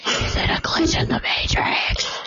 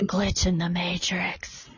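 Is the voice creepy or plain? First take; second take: creepy; plain. First: It is said in a creepy voice. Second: It is said in a plain voice.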